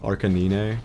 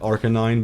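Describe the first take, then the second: First: The name is said with deliberately twisted sounds. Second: The name is said with its usual sounds.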